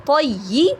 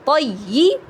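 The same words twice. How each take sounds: Both takes have the same delivery.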